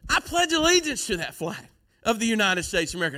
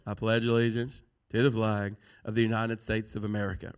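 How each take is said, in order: First: It is said with lively, varied expression. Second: It is said in a flat, monotone voice. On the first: The speaker means the words personally. The speaker calls it right. "no one ever goes" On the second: The words are recited out of routine. The speaker calls it wrong. "in the same monotone voice"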